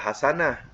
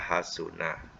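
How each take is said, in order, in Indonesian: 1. Vokal kedua bunyinya 'a'. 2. Vokal kedua bunyinya 'u'. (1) "ya tentu kita baca hasanah" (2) "yang betulnya ialah hasunah. ... hasunah baris depan"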